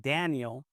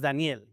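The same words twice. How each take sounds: First: The name is said with an English-style pronunciation. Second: The name is said with a Spanish pronunciation. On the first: "say it in an English kinda way" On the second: "because that's how you pronounce it in Spanish"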